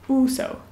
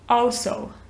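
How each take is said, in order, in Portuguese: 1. Sotaque britânico, com um som mais próximo de U. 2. Sotaque americano, com um som de O mais aberto. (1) "No britânico é also" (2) "Tem esse som mais de O, né, no americano"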